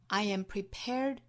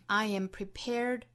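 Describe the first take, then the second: Both takes have the same delivery.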